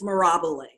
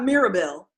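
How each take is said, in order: First: The name ends with a 'bee-leh' sound. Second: The name ends with a 'bell' sound. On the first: The speaker calls it right. "it's Mirabile" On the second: The speaker calls it wrong. "it's not Mirabelle"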